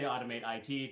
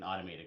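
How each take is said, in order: First: The ending is spelled out as two letters. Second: The ending is said as the word it. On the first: The speaker calls it wrong. "don't say automate I T" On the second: The speaker calls it right. "the I T is pronounced it"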